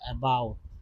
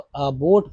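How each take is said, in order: First: The second vowel sounds like ow. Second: The second vowel sounds like oh. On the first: The speaker calls it right. "आ के रूप में पढ़ा जा रहा है" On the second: The speaker calls it wrong. "अबोट तो है नहीं"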